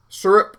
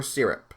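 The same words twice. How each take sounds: First: "Syrup" as SUR-up; first variant. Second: "syrup" as SEER-up; second variant. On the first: Comparing two ways aloud, SUR-up first. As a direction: say "Syrup" with an er vowel. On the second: Comparing two ways aloud, SEER-up second. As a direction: say "syrup" with an ih-ee vowel. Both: Shown as a demonstration. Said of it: "I forget how I say it".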